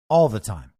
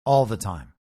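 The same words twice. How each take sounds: First: "all" said low and hard; stress on all. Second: "all" pressed low and firm; stress on all again. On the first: Stressing "all" to correct the audience. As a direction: lean on "all the time". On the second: Repeating the point to the audience. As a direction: hit "all" in "all the time". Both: Shown as a demonstration. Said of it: "Not sometimes".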